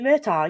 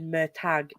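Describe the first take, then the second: First: The name ends without any G sound. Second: The name ends with a pronounced G sound. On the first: "Silent G" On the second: "I've always said Mertag"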